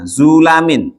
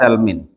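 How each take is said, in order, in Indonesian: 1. Vokal pertama adalah u, dengan a setelah l. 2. Vokal pertama adalah a, tanpa vokal kedua. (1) "Ma fathil lami beserta dibaca fathah lamnya" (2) "Bi fathi za'i dengan dibaca fathah huruf za-nya"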